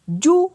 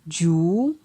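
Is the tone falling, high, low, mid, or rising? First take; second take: high; rising. First: The syllable has a high tone. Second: The syllable has a rising tone. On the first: "pour un ton haut" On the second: "ton montant"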